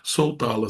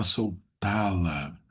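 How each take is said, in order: First: Said in the usual way. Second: Soltá-la very slow, with TÁ stretched out; soltá-la broken after sol, long weight on TÁ; stress on Á. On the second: Shown as a demonstration. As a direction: hold the Á in "soltá-la". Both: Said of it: "tem acento agudo no A".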